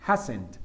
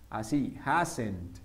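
First: Hasn't said low and short, ending crisply on the T; contracted form modeled; pronunciation demo. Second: Hasn't said slowly and low, final t clear; careful pronunciation model; pronunciation demo. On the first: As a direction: clip hasn't off on a clear T. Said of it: "Terminas una T". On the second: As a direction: drag out hasn't and finish on the T. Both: Shown as a demonstration.

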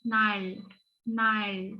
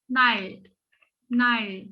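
First: Nal with a heavy, thick L, wrong reading; mock the wrong heavy L in nal; hard L. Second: Nal with a soft, light L, tongue tip on the palate. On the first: Teacher shows students the wrong hard L in nal. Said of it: "nal diye bir okuma şekli yok". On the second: Teacher models the correct soft L in Nal. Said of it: "L'yi yumuşak söylüyoruz". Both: Shown as a demonstration.

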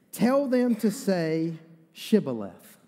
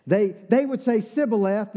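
First: "Shibboleth" with a clear sh at the start, slow; correct Shibboleth. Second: "Sibboleth" with a plain s in place of sh; mispronounced Sibboleth. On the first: Gilead's men setting the test word, clear sh. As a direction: say "Shibboleth" slowly, sh sound marked. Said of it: "the Ephraimites couldn't say the sh". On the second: Ephraimites failing the password test, s for sh. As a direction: say "Sibboleth" with a hissed s, as the Ephraimites failed. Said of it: "couldn't say the sh". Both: Shown as a demonstration.

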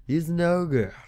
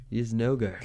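First: Lightly voiced ogre, a touch higher; a quick hint of a hammed-up ogre; mock ogre growl on ogre. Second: Said in the usual way. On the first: Shown as a demonstration.

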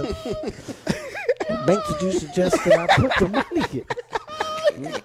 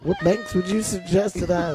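First: High, slow, breaking into laughter; can't hold it together asking; laughing through it. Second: Said in the usual way. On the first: Real, not acted. Comedian cracking up while asking which banks, laughing.

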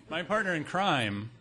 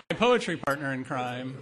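First: Amused correction, PARTNER leaned on in "partner in crime"; stress on partner. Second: Laughing correction, POETRY punched loud; stress on POETRY. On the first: Speaker fixing a slip before the audience, stress on "partner". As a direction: stress "partner" through a laugh. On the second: Speaker clarifying the partnership to the audience, loud stress on "poetry". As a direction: hit the added word "poetry" hard, amused. Adds the missing word, laughing. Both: Real, not acted.

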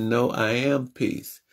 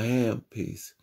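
First: Said in the usual way. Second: A hushed echo of I am peace; softer calm repeat. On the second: Retold or imitated. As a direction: settle into it, softer. Calming himself amid anger.

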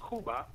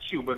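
First: "Cuba" said as in Spanish, KOO-ba, no Y glide; "Cuba" with a clean K and pure OO, KOO-bah. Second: "Cuba" said the American way, KYOO-ba; "Cuba" with a Y glide after the K, KYOO-buh. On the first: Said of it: "It's Cuba". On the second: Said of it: "that's the American accents". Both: Shown as a demonstration.

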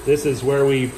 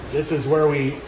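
Both takes have the same delivery.

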